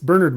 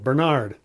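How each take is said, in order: First: The stress is on the first syllable. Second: The stress is on the second syllable. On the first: This is the English pronunciation. The speaker calls it right. "It's Bernard Montgomery" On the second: This is the American pronunciation. The speaker calls it wrong. "going with the second syllable"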